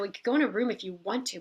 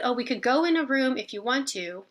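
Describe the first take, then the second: First: Quick, dismissive mock attitude; snippy attitude. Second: Said in the usual way. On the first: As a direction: rattle it off like the request is a bother. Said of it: "she gave me an attitude like". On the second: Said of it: "And she said".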